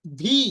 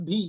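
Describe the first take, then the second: First: "ভি" low, as an English v; lip-to-teeth v opening "ভি"; correct letter name. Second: "ভি" as Bengali bh, like bhi; breathy b instead of v in "ভি"; wrong pronunciation. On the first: ("ভি" ইংরেজি v ধ্বনিতে) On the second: ("ভি" বাংলা ভ দিয়ে) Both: Shown as a demonstration. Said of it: "not ভি".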